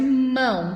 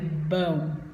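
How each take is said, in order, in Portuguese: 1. A palavra começa com um m nasal bem claro. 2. A palavra começa com um som parecido com b. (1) "ao invés de mão" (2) "tá saindo bão"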